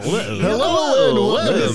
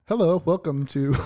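First: It is said in a put-on radio announcer voice. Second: It is said in a plain everyday speaking voice. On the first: The speaker calls it wrong. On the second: The speaker calls it right. "Just do it normal though"

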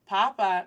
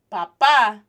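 First: The stress is on the first syllable. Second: The stress is on the second syllable. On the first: It means potato. "papa means potato" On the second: It means father. "stressing the A, accents matter, stressing the second A, means father"

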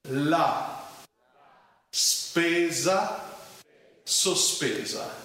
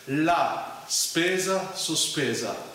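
First: It is said slowly, word by word. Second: It is said at a medium speed.

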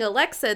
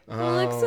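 First: The word is said clearly. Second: The word is muffled and mumbled.

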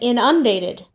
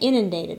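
First: The stress is on the first syllable. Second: The stress is on the second syllable. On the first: "She said inundated. It's kind of like insurance" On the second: "That's how I say it"

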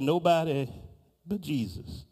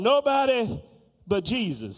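First: It is mumbled quietly under the breath. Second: It is said aloud with rising force. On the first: "there was a mumbling in the back of the room. And the mumbling went something like" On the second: "she picked up a tone"

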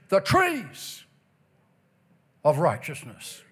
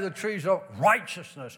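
First: The word trees carries the main stress. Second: The word trees carries no special stress. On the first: The speaker calls it right. "The emphasis on the word trees" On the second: The speaker calls it wrong. "it doesn't say the trees of righteousness"

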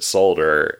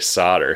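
First: It is said the non-American way. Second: It is said the American way. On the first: "Anyone else who speaks English says it solder" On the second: "Americans say solder"

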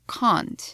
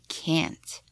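First: It is said with a British accent. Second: It is said with an American accent. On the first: "in British English, I would say" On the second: "in American, I would say"

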